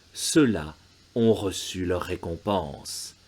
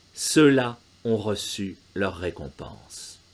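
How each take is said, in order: No difference in how they are said.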